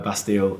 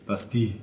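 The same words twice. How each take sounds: First: It is said with an English accent. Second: It is said with a French accent. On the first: The speaker calls it wrong. "in our terrible English accents we say" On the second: The speaker calls it right. "it's clearly Bastille in, in French"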